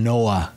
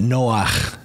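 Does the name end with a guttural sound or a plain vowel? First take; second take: plain vowel; guttural. First: The name ends softly on a plain vowel. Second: The name ends with a harsh throaty sound. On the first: It is the female name. "rather than Noah" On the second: It is the male name. "it's got that guttural at the end of it"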